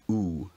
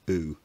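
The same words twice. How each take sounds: First: The vowel is made far back. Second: The vowel is made further forward. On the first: "a very backed tongue position" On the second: "the more recent oo"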